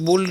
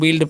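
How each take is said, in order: First: The vowel sounds like the 'u' in 'book'. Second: The vowel sounds like the 'i' in 'bit'. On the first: The speaker calls it wrong. "इसे बुल्ड नहीं पढ़ना है" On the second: The speaker calls it right. "बिल्ड पढ़ना है"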